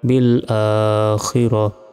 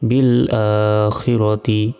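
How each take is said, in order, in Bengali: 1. শব্দটি সাকিনযুক্ত হা ধ্বনি দিয়ে শেষ হয়। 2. শব্দটি ত ধ্বনি ও স্বরধ্বনি দিয়ে শেষ হয়।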